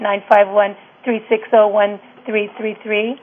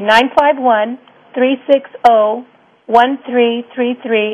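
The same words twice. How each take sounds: First: The number is said at normal speed. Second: The number is said more slowly.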